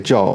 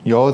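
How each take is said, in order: First: The word begins with a j sound. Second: The word begins with a soft y sound. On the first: This is how the word is said in Puerto Rico. "they say Joe" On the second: This is how the word is said outside Puerto Rico. "they don't say yo there"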